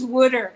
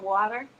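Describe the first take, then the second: First: Imitating her "wooder" with an oo in it; imitated "wooder". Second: Said in the usual way. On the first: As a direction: say water as "wooder", short oo vowel. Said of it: "she says "wooder" instead of "water". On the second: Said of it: "instead of "water".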